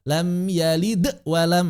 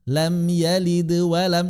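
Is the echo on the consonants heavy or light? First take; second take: heavy; light. First: The echo is forceful and jerky. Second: The echo is light and flowing. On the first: The speaker calls it wrong. "tidak dibaca" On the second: The speaker calls it right.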